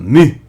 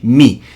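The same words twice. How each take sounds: First: The vowel is rounded, like a 'ü' sound. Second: The vowel is a plain unrounded 'i' sound. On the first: "Esse uzinho é o uzinho tremado" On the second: "Ou simplesmente mi"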